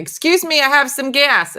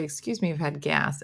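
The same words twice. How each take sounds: First: Loud, high "Excuse me, I have some gas"; loud, high toddler announcement; toddler announcing. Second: Said in the usual way. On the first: Retold or imitated. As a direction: announce it proudly, as a toddler running round the house. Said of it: "started announcing it". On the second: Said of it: "we were teaching him to say".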